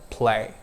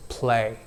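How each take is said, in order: First: American accent. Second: Indian accent. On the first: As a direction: Play with an American accent, gliding eh-i diphthong. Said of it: "in American accent". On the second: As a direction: play with an Indian accent, flat single e vowel. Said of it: "in Indian accent is articulated as". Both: Shown as a demonstration.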